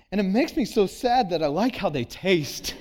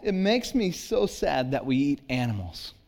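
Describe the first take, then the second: First: Mock heartbroken confession with a laugh; broken-hearted confession. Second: Said in the usual way. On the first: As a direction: fake the daughter's tragic admission, laughing through it. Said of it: "broken-hearted confession". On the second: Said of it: "She said".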